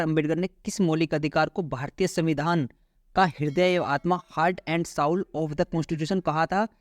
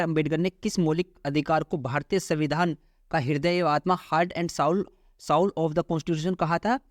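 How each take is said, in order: The two takes are said the same way.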